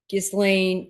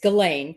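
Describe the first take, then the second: First: The name is sounded out as it is spelled. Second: The name is not sounded out as spelled. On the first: The speaker calls it wrong. "I always say that wrong. ... I want to say it uh, phonetic" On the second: The speaker calls it right. "It's Ghislaine"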